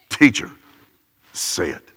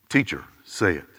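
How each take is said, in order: First: The words are spat out with clear contempt. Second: The words are said in a plain, neutral way.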